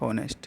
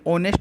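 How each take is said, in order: First: The word starts with an audible h sound. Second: The word starts with a vowel, no h. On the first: The speaker calls it wrong. "न कि हॉनेस्ट" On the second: The speaker calls it right. "ये ऑनेस्ट बोला जाता है"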